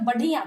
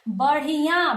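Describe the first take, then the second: First: The middle consonant is a plain stop. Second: The middle consonant is a tongue flap. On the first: The speaker calls it wrong. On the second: The speaker calls it right.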